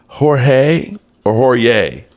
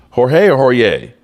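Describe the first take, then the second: First: Slow Jorge with an H then Jorge with a Y sound; trying pronunciations. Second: Jorge with an H, then Jorge with a Y; trying pronunciations. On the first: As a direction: test each Jorge slowly. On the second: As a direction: compare both Jorge sounds. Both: Shown as a demonstration.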